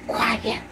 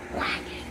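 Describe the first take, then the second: First: Softer, hushed Quiet. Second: Quiet whispered, no voice. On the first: Vlogger hushing herself, soft Quiet. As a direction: say Quiet softly, still voiced. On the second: Vlogger hushing herself, whispered Quiet. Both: Shown as a demonstration.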